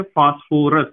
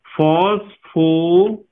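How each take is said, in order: First: Said in the usual way. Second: फॉस्फोरस drawn out very slowly, each syllable stretched; slow corrective stress. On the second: Shown as a demonstration. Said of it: "R O U S".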